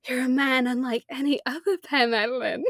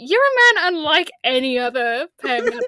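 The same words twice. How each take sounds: First: It is said in a breathy voice. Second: It is said in a plain voice.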